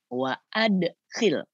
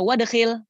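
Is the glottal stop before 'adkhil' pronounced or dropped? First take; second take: pronounced; dropped. First: A glottal stop separates wa from adkhil. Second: Wa runs straight into dkhil without a stop. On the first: The speaker calls it right. "Hamzahnya hamzah qata'. Maka bacanya wa adkhilna" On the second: The speaker calls it wrong. "mohon maaf secara teori salah"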